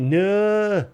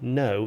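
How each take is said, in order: First: The vowel is dragged out long. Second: The vowel is short and plain. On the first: The speaker calls it right. "you say no. You drag out the uh" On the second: The speaker calls it wrong. "you don't say no"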